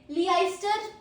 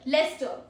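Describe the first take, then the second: First: The first part sounds like 'ice'. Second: The first part sounds like 'less'. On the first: The speaker calls it wrong. "Sorry. Leicester? No" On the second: The speaker calls it right. "We say it as Leicester"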